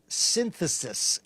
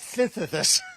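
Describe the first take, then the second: First: The word is said at a normal speed. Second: The word is said too fast and slurred.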